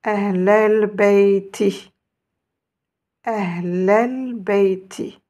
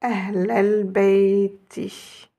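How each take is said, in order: First: Ahlal bayti lent, ahlal lié d'un seul souffle; avec la liaison. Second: Ahlal bayti très étiré, syllabe par syllabe; très lent. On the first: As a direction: liez ahlal et bayti lentement. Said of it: "il faut faire la liaison". (Ahlal bayti lu lentement, sans coupure) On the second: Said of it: "je vous remontre". (Ahlal bayti redit très lentement, bien lié) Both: Shown as a demonstration.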